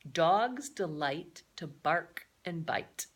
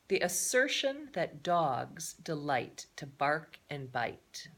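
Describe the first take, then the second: First: Dogs delight to bark and bite, each word spelled out slowly; slow, careful reading. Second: Said in the usual way. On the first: Shown as a demonstration. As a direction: read the quote slowly so the children catch every word. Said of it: "The assertion means the phrase". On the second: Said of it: "Did you get that?".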